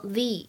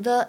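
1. 这个元音是较长的 'ee' 音。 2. 这个元音是短而弱的 'uh' 音。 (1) "应该读成the，因为后面的old 是一个元音因素来开头的单词" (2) "定冠词不能够读成the"

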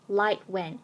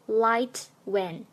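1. "light" 末尾的 t 不爆破。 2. "light" 末尾的 t 完全爆破。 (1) "light t 失去爆破" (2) "不读作light when"

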